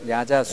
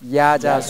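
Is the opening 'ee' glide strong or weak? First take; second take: weak; strong. First: The opening 'ee' glide is barely heard. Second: The opening 'ee' glide is strongly emphasized. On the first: The speaker calls it right. "야자수 발음을 할 때 보면 이 발음이 거의 들리지 않습니다" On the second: The speaker calls it wrong. "이를 강조해서 제가 야자수를 발음해 보겠습니다"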